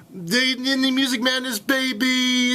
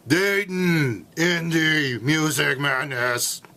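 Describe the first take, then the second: First: Higher hyped sportscaster shout-out; excited basketball commentator voice; Dick Vitale impression. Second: Slow, drawn-out rally announcer; monster truck announcer. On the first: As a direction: hype it like a college hoops announcer. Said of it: "impersonation of Dick Vitale". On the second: Pretend. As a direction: stretch it like a monster truck promo. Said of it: "sounds like I'm at a Monster Truck rally".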